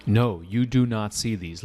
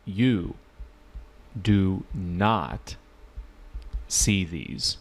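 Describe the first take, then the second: First: Said in the usual way. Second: "do not" split into slow separate beats, pauses between words; slow emphatic repeat. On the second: Shown as a demonstration. Teacher repeating slowly so students catch that they cannot see the questions. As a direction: repeat it word by word, pausing after "You" and "do not". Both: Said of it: "Let me repeat".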